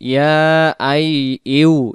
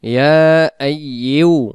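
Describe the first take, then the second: The two takes are said the same way.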